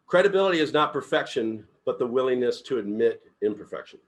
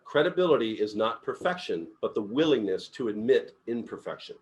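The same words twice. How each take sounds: First: Credibility and willingness punched, louder; stress on credibility. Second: Said in the usual way. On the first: Shown as a demonstration. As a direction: read the quote with weight on credibility. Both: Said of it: "I like that".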